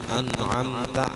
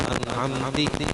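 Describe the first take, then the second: First: The word ends with an a vowel. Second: The word ends with an i vowel. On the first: "ta an'amta" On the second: "au kasri"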